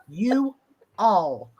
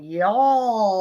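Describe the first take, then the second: First: "You all" split into two separate words; unshortened you all. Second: "y'all" as one long, stretched syllable; drawn-out y'all. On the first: Showing what she used to say, two separate words. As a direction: pause between "You" and "all". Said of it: "Shorten that up". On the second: Repeating the lesson to her co-host, drawn-out y'all. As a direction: shorten it to "y'all" but draw it out. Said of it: "but drawing it out". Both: Shown as a demonstration.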